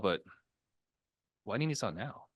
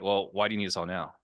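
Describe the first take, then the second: First: It sounds gentle and understanding. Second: It sounds confrontational and challenging.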